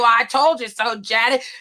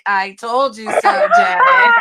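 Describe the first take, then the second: First: It is said plainly and directly. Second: It is said in a sarcastic, condescending tone.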